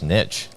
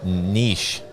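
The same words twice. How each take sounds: First: It is said in the speaker's usual American way. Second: It is said the way Canadians say it.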